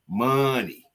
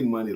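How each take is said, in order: First: The word is drawn out with strong emphasis. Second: The word is said plainly, without emphasis. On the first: "I emphasize it" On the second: "I don't say money like that"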